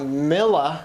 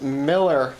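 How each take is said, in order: First: "Miller" ending in an open "ah", no R; Boston-accent Miller. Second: "Miller" with a full R at the end; corrected Miller. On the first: Friend mimics his Boston pronunciation, R-less Miller. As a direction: draw out "Miller" with a dropped R. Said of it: "It's not Miller". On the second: Friend from Kansas corrects him, R-ful Miller. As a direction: draw out "Miller" ending on a hard R. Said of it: "And she's like". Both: Retold or imitated.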